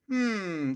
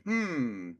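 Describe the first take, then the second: First: Drawn-out falling "hmm"; a curious hum that comes out wrong; curious hum, botched. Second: Light, falling "hmm"; lighter curious hum. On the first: Man demonstrating curiosity to the audience, botched curious hum. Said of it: "that didn't sound right". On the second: Man showing how to lighten up, lighter curious hum. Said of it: "but in a lighter way". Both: Shown as a demonstration.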